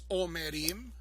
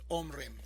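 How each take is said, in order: First: A short vowel is heard after the m. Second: No vowel is heard after the m. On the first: The speaker calls it right. "con una Sheva na debajo de la mem" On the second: The speaker calls it wrong. "yo no puedo decir omrim"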